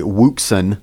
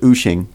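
First: The name starts with a W sound. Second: The name starts with a vowel sound. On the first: This is how the name looks when read from its spelling. The speaker calls it wrong. "It looks like, by the way, Wuxin" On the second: This is believed to be the correct pronunciation. The speaker calls it right. "but I believe it's pronounced Uxin"

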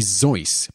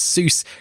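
First: The name begins with a Z sound. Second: The name begins with an S sound. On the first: The speaker calls it right. "The proper pronunciation of Seuss is actually Zeus" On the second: The speaker calls it wrong. "most pronounced it incorrectly as Seuss"

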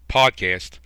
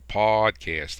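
First: The syllables are kept short and even. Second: One syllable is dragged out long. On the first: The speaker calls it right. "I'm going to say it properly" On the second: The speaker calls it wrong. "I just drag that syllable out and go"

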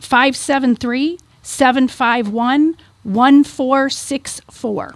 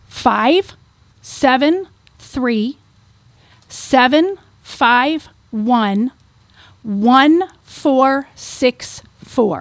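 First: The number is read at normal speed. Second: The number is read slowly.

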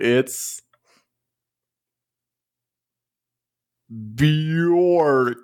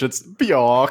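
First: It is said in an American accent. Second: It is said in a British accent.

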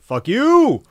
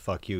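First: 'You' is emphasized with a big upward pitch, like Randy Marsh. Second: It is said plainly, without special emphasis.

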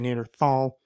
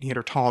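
First: The middle consonant is a soft th sound. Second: The middle consonant is a hard t sound. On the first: This is how English speakers say it. "it became a th sound, so the English say Neanderthal" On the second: This follows the original German pronunciation. "quote-unquote correct, would be Neanderthal, because that's where the original valley came from"

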